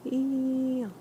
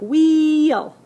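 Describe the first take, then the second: First: It is said quietly. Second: It is said at normal loudness.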